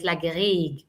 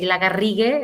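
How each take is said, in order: First: It is said with an English pronunciation. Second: It is said with a Spanish rolled R.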